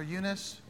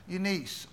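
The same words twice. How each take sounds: First: "Eunice" with a short, reduced last vowel; alternative name pronunciation. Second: "Eunice" ending in a long ee, like "niece"; name pronunciation check. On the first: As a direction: say "Eunice" as YOO-nuss. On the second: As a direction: say "Eunice" as YOO-NEES. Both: Shown as a demonstration. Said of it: "is that how it's pronounced".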